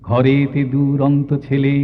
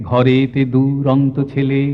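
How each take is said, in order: The two takes are said the same way.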